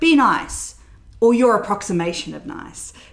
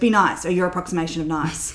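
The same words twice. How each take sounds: First: The line is delivered with lively expression. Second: The line is delivered flat, without expression. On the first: The speaker calls it right. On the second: The speaker calls it wrong.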